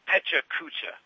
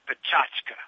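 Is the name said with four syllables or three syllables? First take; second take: four syllables; three syllables. First: The name is said with four syllables. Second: The name is said with three syllables. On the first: The speaker calls it wrong. "It looks like Pecha Kucha" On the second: The speaker calls it right. "but it's pronounced Pachachka"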